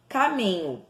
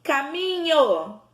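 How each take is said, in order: First: Said in the usual way. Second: "Caminho" called slowly, MI higher and held; calling out the word. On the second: Shown as a demonstration. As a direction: call "Caminho" as if summoning it, MI stretched. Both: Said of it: "vamos falar chamando".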